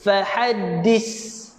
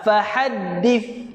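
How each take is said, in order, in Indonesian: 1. Konsonan akhirnya berbunyi desis seperti 's'. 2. Konsonan akhirnya berbunyi 'th' yang lembut. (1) "gigi berjumpa dengan gigi, salah" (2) "nampak lidah saya keluar sikit"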